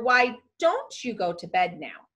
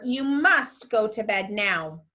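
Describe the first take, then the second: First: A suggestion leaning on "don't"; polite request. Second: Firm order stressing "must"; direct command. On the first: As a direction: offer it as a mere suggestion, stressing "don't". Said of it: "A wish or request". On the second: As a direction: lay down an order, leaning on "must". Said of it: "had to be a direct command". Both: Shown as a demonstration.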